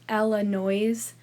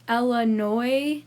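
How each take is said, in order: First: The final S is pronounced. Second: The final S is silent. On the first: The speaker calls it wrong. "not Illinois" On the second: The speaker calls it right. "it's pronounced Illinois"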